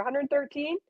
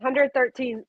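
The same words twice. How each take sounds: First: Hundred thirteen with a rising question on thirteen; Hundred thirteen, tentative lift at the end; unsure question. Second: Hundred thirteen with a firm falling close; Hundred thirteen, stress on Hundred, then down; settled answer. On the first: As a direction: ask Hundred thirteen as if checking. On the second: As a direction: state Hundred thirteen, confident now. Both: Real, not acted. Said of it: "what was it".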